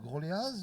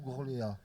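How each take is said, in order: First: The name ends with an audible z sound. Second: The name ends on a vowel, no z sound.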